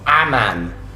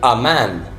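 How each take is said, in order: First: The article has a full, open 'a' vowel. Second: The article has a short, reduced 'uh' vowel. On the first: The speaker calls it wrong. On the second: The speaker calls it right.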